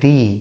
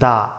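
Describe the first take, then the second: First: The word ends with an 'ee' vowel. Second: The word ends with a short 'uh' vowel. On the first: The next word begins with a vowel. "Vowel দিয়ে শুরু হওয়া কোনো শব্দ থাকে তাহলে পরে তার উচ্চারণটা হয়ে যাবে দি" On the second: The next word begins with a consonant. "Consonant দিয়ে শুরু হয় তাহলে উচ্চারণটা হবে দা"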